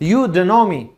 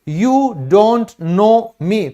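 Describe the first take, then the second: First: The word "don't" shrinks to a short "d". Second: The word "don't" is said fully, with its t.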